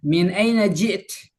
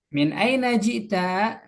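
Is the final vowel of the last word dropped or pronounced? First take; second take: dropped; pronounced. First: The last word ends without a vowel. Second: The last word ends with a short vowel.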